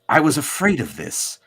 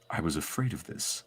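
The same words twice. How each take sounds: First: It imitates Xavier's animated-series voice. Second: It is not in Xavier's cartoon voice.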